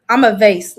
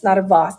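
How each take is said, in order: First: Vase rhyming with face; vase as VAYSS. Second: Vase rhyming with floss; vase as VAHSS. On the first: Telling viewers their side, vase said as VAYSS. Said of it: "do you guys say vase". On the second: Rejecting the bougie way, vase said as VAHSS. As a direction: say vase with an open AH sound. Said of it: "vase is too bougie". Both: Shown as a demonstration.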